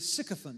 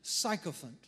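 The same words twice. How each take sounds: First: The first syllable sounds like 'sick'. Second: The first syllable does not sound like 'sick'. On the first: The speaker calls it right. "but it is actually, sycophant. Just remember, sick people are sycophants" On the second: The speaker calls it wrong. "Some people pronounce it sycophant"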